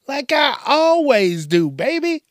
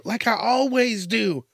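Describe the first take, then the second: First: "Like I always do" sung out higher, louder and slower, with "always" stretched; milk the line like a showman; showy hype repeat. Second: Said in the usual way. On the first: Real, not acted. Promising the crowd more jokes, hammed-up higher, louder drawn-out repeat.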